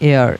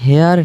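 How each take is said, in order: First: The word begins with a vowel sound. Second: The word begins with an h sound. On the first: The speaker calls it right. "এটা হবে অ্যান এয়ার, এইচের উচ্চারণটা হচ্ছে না" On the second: The speaker calls it wrong. "অ্যান হেয়ার না"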